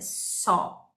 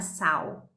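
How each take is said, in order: First: The vowel is an O sound. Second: The vowel is not an O sound. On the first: The speaker calls it right. "é só" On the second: The speaker calls it wrong. "não é saw"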